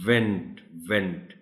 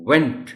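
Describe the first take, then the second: First: The mistaken went that sounds like vent; wrong v sound. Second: Went started with lips rounded forward, a true w; correct w sound. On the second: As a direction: say went with round lips, not teeth on lip. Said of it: "So the word is". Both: Shown as a demonstration.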